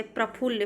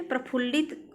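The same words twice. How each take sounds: First: प्रफुल्ल ending on a double l; correct form प्रफुल्ल. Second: प्रफुल्लित with an added -it; wrong form प्रफुल्लित. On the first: Teacher corrects students, प्रफुल्ल ending on ll. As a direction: say प्रफुल्ल without -it. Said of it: "प्रफुल्लित अशुद्ध है". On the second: Teacher rejects the impure form, प्रफुल्लित with -it. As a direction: end प्रफुल्लित on short it. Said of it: "अशुद्ध है". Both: Shown as a demonstration.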